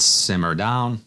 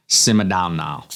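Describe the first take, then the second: First: Said in the usual way. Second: A lightly put-on Jamaican accent, half joking; terrible Jamaican accent. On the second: Reviewer reads the perfume name aloud in a jokey, bad Jamaican accent. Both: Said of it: "terrible Jamaican accent".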